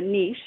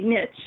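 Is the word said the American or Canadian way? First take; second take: Canadian; American. First: It is said the Canadian way. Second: It is said the American way.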